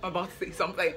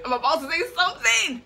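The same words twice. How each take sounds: First: Said in the usual way. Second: Pitched up to announce "something"; higher announcing take. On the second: Shown as a demonstration. Vlogger hyping her announcement to viewers, higher. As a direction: lift it high, like a grand announcement.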